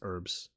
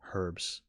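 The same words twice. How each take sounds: First: The word is said with an American pronunciation. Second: The word is said with a British pronunciation. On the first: "American English it's herbs" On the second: "British English it's herbs"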